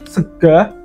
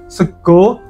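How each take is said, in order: First: The word ends with an open 'a' vowel. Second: The word ends with an 'o' vowel. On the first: "dia tetap mempertahankan bunyi A" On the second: "huruf A tadi biasa diubah menjadi O"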